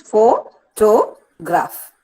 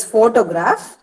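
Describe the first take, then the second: First: "Photograph" very slowly as pho, to, graph; syllable by syllable. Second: Said in the usual way. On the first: Shown as a demonstration. Teacher counting three units for students, syllable by syllable. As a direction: split "Photograph" into three parts with clear gaps. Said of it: "Three units". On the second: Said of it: "divide this word only into three units".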